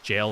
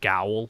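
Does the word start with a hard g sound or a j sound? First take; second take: j sound; hard g. First: The word starts with a j sound. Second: The word starts with a hard g sound. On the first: The speaker calls it right. "it's pronounced jail" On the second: The speaker calls it wrong. "they'll say like gowl"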